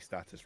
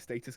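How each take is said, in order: First: The name is said with an American pronunciation. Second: The name is said with a British pronunciation. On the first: "it should be Status, right? And that's the, the American way of saying it" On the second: "I say Status because I'm British"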